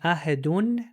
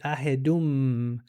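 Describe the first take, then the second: First: The word ends with an n sound. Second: The word ends with an m sound. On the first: The reading stops at this word. "Instead of saying ahedun" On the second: The reading continues into the next chapter. "they'll say ahedum"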